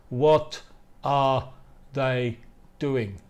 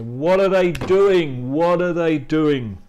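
First: "What are they doing" with each word separate, full ARE. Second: "What are they doing" run together, ARE shrunk to a schwa; reduced native pronunciation. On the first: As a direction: say "What... are... they... doing" unreduced, pausing between words. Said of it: "Nadie te va a decir". (palabra por palabra, con "are" completo, sin reducir) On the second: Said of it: "Se van a decir". (pronunciación nativa, "What are" unido y reducido a "uara") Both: Shown as a demonstration.

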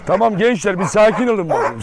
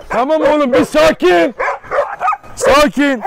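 First: Said in the usual way. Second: Loud, slow, high command to settle the dogs; firm shout to calm. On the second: Real, not acted. Dogs fighting, calming them. (yüksek sesle, yavaş ve sert bir sakinleştirme)

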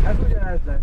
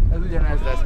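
Both takes have the same delivery.

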